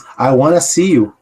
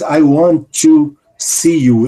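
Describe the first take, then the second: First: Want and to blend together into wanna. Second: The words want and to are said separately. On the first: The speaker calls it right. "Ele diz" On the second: The speaker calls it wrong. "Ele não diz"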